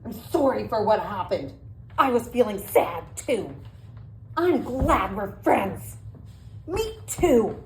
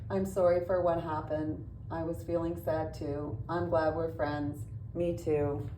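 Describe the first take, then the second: First: It is said in an angry tone. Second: It is said in a flat monotone.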